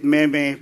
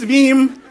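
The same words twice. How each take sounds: First: "meme" as two syllables, meh-meh; "meme" with both e's sounded, MEH-meh; mispronounced "meme". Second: "meme" as one syllable, meem; "meme" with a long ee and silent final e; correct "meme". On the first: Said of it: "but it is pronounced meme". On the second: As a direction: say "meme" to rhyme with gene. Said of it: "it is pronounced meme". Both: Shown as a demonstration.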